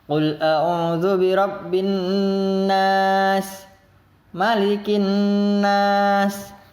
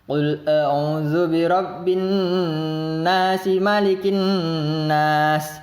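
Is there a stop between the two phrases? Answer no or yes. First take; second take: yes; no. First: There is a stop after the first phrase. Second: The phrases run together without any stop.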